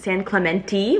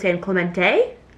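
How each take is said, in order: First: The name is said with the local pronunciation. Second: The name is said with an outsider's pronunciation. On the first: The speaker calls it right. "which apparently is how you pronounce it" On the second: The speaker calls it wrong. "I thought it was"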